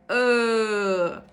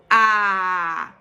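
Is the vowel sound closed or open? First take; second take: closed; open. First: The vowel is said with a closed mouth. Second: The vowel is said with an open mouth. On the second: "bem aberto"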